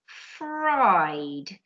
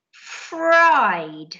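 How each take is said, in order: First: Said in the usual way. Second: Fried said louder, stretched out clearly; emphasised fried. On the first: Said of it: "repeat of fried, softer". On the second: Shown as a demonstration. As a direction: stretch and stress fried for the class. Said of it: "teacher models past tense word".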